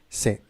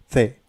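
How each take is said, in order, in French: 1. Il commence par un son 's' sifflant. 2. Il commence par un son 'th' doux. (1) "Mais en Amérique, la prononciation c'est comme en français" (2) "En Espagne, la prononciation, c'est C. Comme par exemple avec la T H en anglais"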